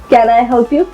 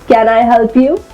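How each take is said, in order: No difference in how they are said.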